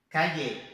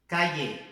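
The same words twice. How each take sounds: The two takes are said the same way.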